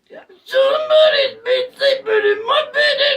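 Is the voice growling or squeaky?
squeaky. It is said in a squeaky voice.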